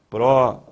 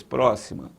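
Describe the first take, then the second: First: "Próxima" split pró, xi, ma, with a loud first syllable. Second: Said in the usual way. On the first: Shown as a demonstration. Teacher showing the strong syllable, "Próxima" chopped into pró, xi, ma. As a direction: punch the Pró of "Próxima", then place each syllable apart. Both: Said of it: "sílaba mais forte".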